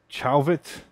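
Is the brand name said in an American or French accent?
American. The name is said with an American pronunciation. "if you're American, it's probably like Chauvet"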